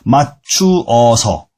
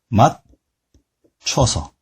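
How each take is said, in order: First: The vowels 추어 are said as two syllables. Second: The vowels merge into one syllable, 춰. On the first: "두 음절, 소리 소리 두 개가 모여서 하나가 되는 거예요" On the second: "추어가 추어가 되는 거죠"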